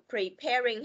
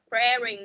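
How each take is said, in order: First: Said in the usual way. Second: "preparing" slurred into "prearing"; run-together pronunciation. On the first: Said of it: "đọc được từ preparing ha". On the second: Retold or imitated. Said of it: "Mặc dù bạn đọc bị dính".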